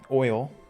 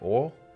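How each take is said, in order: First: The word is said to rhyme with foil. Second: The word is said in a Southern way. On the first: "but it's oil, like foil. that's how I say it" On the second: "most people from the South will say oil"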